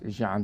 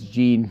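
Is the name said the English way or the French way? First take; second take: French; English. First: The name is said with a French pronunciation. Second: The name is said with an English pronunciation. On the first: This is how French speakers say it. "but it's Jean to them" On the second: This is how English speakers say it. "it's Jean to us"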